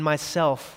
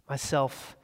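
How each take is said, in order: First: It is said loudly, clearly and cheerfully. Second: It is said in a very deep, low voice.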